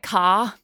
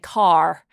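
First: The final R is dropped, Australian style. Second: The final R is pronounced, American style.

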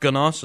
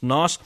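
First: The word begins with a hard G sound. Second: The word begins with a plain N sound. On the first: The speaker calls it wrong. "It's not Gnoss" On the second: The speaker calls it right. "it's Noss"

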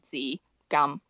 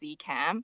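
First: The name is said with its Cantonese pronunciation. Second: The name is said in an English-adapted way. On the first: This is the name's actual pronunciation. The speaker calls it right. "the correct way to say those two words is actually" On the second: This is the simplified version given to English speakers. The speaker calls it wrong. "I just tell people that my name is"

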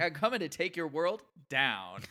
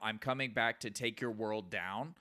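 First: It is said with a sassy attitude. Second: It is read out plainly.

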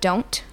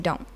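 First: The final T is clearly pronounced. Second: The word ends after the N, no T. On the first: "instead of don't" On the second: "we just say don't. And we just end the word after the N"

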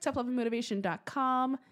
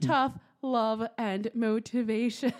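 First: It is said fast. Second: It is said slowly.

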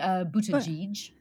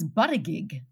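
First: The name is pronounced the Maltese way. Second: The name is pronounced the Australian way. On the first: "you would say it in Malta, I guess. We could say" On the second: "In Australia, it was"

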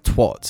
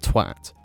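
First: The word has an American-style vowel. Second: The word has an English-style vowel. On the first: The speaker calls it wrong. "they'll have them say the Americanism of that word" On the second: The speaker calls it right. "instead of"

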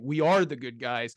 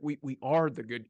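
First: The voice sounds firm and defiant. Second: The voice sounds shaky and broken.

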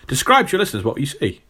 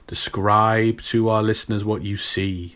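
First: It is said in his normal voice. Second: It is said in a spooky put-on voice.

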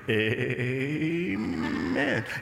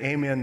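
First: The word is stretched out very long. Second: The word is said short and plain. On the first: A showy display meant to seem holy. "it has like 22 syllables to it" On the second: An ordinary, sincere amen. "They don't say amen"

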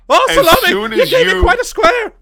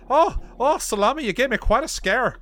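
First: It is said in a more panicked, frightened tone. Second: It is said in a mild, only slightly alarmed tone. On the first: "Make it a little more panicked" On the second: "I got to work on my Irish accent"

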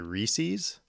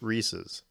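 First: The final syllable has a long, hard E sound. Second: The final syllable has a short, weak vowel. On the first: This is how Southerners say it. "Like a hard E at the end of that" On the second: This is how Midwesterners say it. "we pronounce it Reese's"

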